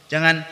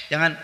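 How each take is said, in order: Both takes have the same delivery.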